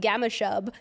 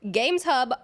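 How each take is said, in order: First: The s joins the second word: Gamma Shub. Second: The s joins the first word: Games Hub. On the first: The speaker calls it wrong. "pronounces Gamma Shub every single time" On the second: The speaker calls it right. "read Games Hub"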